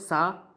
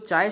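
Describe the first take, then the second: First: It is said in a Malwa regional pronunciation. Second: It is said in standard Hindi pronunciation.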